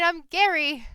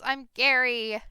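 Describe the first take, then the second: First: Loud high goblin shout, not angry; friendly shouting. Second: Loud goblin shout, higher voice. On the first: Goblin cheerfully yells his name again, not angry at all. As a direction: yell it happily, no anger. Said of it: "he wasn't angry, he was just shouting". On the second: Goblin shouts his name at the strangers, loud and high. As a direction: bellow your name like a cheerful goblin. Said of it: "the goblin shouts". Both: Acted.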